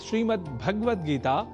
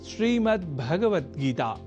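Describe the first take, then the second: First: The vowel after the g sound is dropped. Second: The vowel after the g sound is kept. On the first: The speaker calls it wrong. "इसमें भगवत पद में गकार से संयुक्त अ स्वर का हम लोप कर देते हैं" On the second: The speaker calls it right. "ध्यान से पुनः सुनिए"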